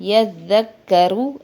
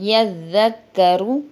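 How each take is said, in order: The two takes are said the same way.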